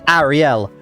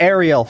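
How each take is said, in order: First: It is said in the speaker's old accent. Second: It is said in an Americanized accent.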